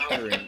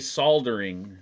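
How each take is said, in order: First: The L sound is left silent in the word. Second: The L sound is pronounced in the word. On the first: The speaker calls it right. "The L is silent in soldering" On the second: The speaker calls it wrong. "You don't say soldering"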